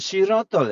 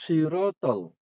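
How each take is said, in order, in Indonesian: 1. Diawali dengan bunyi s yang ringan dan biasa. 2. Diawali dengan bunyi s yang berat dan tebal. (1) "bukan sirotol ya ... Si itu sin jadinya" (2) "Shot ini shot"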